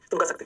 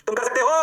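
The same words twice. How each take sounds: First: Said in the usual way. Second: Emphatic, stretched pep talk; rousing encouragement. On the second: Real, not acted. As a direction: push the class with a loud "you can". Rousing repeat to encourage students.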